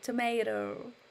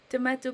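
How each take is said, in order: First: It is said in an American accent. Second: It is said in a British accent. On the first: "You Americans say tomato" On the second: "I say"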